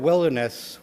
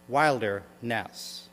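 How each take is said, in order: First: The first syllable sounds like 'will'. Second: The first syllable sounds like 'wild'. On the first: The speaker calls it wrong. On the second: The speaker calls it right.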